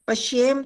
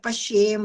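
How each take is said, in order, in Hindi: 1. अंतिम म कटा हुआ है, इसमें कोई स्वर नहीं। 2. अंतिम म पूरा है, अपने स्वर के साथ। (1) "पश्येम तो आधा बन गया" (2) "ये म पूरा है ना"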